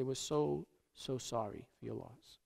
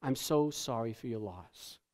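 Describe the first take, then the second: First: Much softer, lower near-whispered sympathy, stretched so; barely audible condolence. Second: Softer, lower dutiful sympathy; the automatic words of a mourner at a wake; hushed condolence. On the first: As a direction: awkwardly hush it to the widow. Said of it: "we walk up to the person and we say". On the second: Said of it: "where we say". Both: Retold or imitated.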